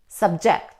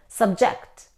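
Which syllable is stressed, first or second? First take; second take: second; second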